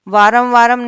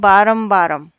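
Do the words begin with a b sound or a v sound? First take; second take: v; b. First: The words begin with a v sound. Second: The words begin with a b sound. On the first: The speaker calls it wrong. "नहीं होता" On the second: The speaker calls it right. "शुद्ध रूप क्या बनता है इसका बै"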